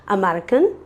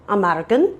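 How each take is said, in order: Both takes have the same delivery.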